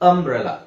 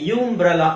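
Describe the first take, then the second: First: The word begins with a short 'uh' sound. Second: The word begins with a 'yoo' sound. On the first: The speaker calls it right. "ಅ ಅಂತ ಹೇಳ್ತೀವಿ" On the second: The speaker calls it wrong. "ಯುಂಬ್ರೆಲಾ ಅಂತ ಹೇಳಲ್ಲ"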